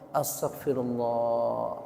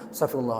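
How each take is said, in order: First: It is said with heartfelt attention. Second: It is said carelessly, without attention.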